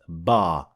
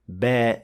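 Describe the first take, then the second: First: The vowel is heavy, with a full mouth. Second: The vowel is light, with an empty mouth. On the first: The speaker calls it wrong. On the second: The speaker calls it right. "alif that is empty mouth"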